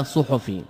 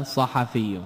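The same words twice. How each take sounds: First: صحفي as ṣuḥfī, ḍamma on ṣu; صحفي بالضم كما يلحن المحدثون; common wrong form. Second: صحفي as saḥafī, open vowels on ṣa and ḥa; صحفي بفتحتين، بصوت منخفض; correct nisba form. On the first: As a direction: say صحفي the way the hadith scholars mispronounce it, ṣuḥfī. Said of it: "المشهور عند أهل الحديث كثيرا من اللحن". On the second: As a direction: give صحفي with fatḥa on both, soft and low. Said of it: "النسبة إليه تكون ماذا؟". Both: Shown as a demonstration.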